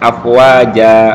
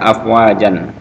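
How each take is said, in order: First: The word ends with a long a, no n. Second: The word ends with a short a and n. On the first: "maka dibaca afwaja" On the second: "Ini kan baca afwajan"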